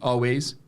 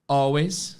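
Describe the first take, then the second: First: The stress is on the second syllable. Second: The stress is on the first syllable. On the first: It sounds like all the ways. The speaker calls it wrong. "Always, todos os caminhos" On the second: It means at all times. The speaker calls it right. "Always, sempre"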